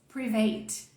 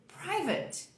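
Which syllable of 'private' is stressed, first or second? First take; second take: second; first. First: The stress falls on the second syllable. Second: The stress falls on the first syllable. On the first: The speaker calls it wrong. "vamos colocar o sotaque do inglês" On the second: The speaker calls it right. "toda a ênfase aqui na primeira, na primeira parte"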